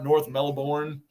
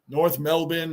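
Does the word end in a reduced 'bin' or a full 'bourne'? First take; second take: full bourne; reduced bin. First: The last syllable is a full 'bourne'. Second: The last syllable is reduced to 'bin'. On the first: The speaker calls it wrong. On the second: The speaker calls it right.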